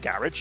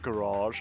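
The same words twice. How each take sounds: First: It is said with a British pronunciation. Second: It is said with an American pronunciation. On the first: "Then garage" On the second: "they say garage, and it's like garage, and I'm like, oh, fancy"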